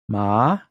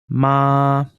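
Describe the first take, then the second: First: The syllable is said with the second tone. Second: The syllable is said with the first tone.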